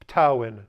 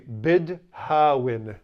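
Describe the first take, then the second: First: It starts with p and the d becomes t. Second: It starts with b and keeps the d. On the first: "very often pronounced ptawin" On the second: "you would say bid hawin"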